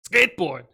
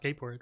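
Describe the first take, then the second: First: The word is said forcefully, with extra vigor. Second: The word is said plainly, without extra vigor. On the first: The speaker calls it right. "you have to say it with like more vigor though" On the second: The speaker calls it wrong. "not not skateboard"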